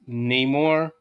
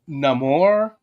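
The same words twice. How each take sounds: First: The name is said with an English accent. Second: The name is said with a Spanish accent.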